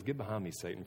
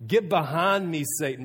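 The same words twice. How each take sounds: First: Softer, low and firm get behind me Satan; hushed serious rebuke; quiet stern rebuke. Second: Loud, sharp retold rebuke of Peter; louder commanding get behind me Satan. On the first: Retold or imitated. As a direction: say it quietly, gravely, as a final word. Jesus rebukes Peter, retold again. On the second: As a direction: snap it out as Jesus rebuking.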